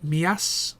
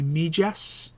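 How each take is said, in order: First: Mias said mee-ASS, no j sound; locals' pronunciation. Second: Mijas said MEE-jass, with an English j; as-spelt pronunciation. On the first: Explaining what locals call the town, Mias with silent j. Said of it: "the locals call it Mias". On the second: Correcting the locals' name for the town, Mijas with hard English j. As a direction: sound the j in Mijas, as in jam. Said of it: "but it's actually Mijas". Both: Shown as a demonstration.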